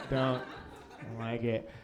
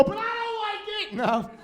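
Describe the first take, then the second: First: Low, quiet grumble; understated low-voiced cop objection; mock disapproving cop. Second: Very high, softer squeal; comic cop, pitched way up; mock disapproving cop. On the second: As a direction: squeal the objection in a tiny high voice. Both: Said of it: "I look like a cop".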